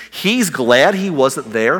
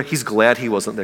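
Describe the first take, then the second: First: Slow, disbelieving rising question; incredulous question. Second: Said in the usual way. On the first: Retold or imitated. Disciples can't believe Jesus is glad, slow disbelieving question. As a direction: drag it out like you can't believe it.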